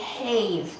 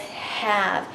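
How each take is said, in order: First: The vowel is a long A sound. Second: The vowel is a short A sound. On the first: The speaker calls it wrong. "the E makes the A say his name, so this word should be have" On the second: The speaker calls it right. "but it's not. It says have"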